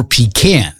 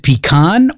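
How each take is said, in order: First: Pecan said pee-KAN, short A as in "cat". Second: Pecan said pee-KAHN, broad AH at the end. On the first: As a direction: rhyme the end of pecan with "can". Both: Shown as a demonstration. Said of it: "the big question surrounding".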